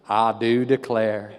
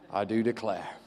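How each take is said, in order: First: It is said in an American accent. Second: It is said in the speaker's own accent.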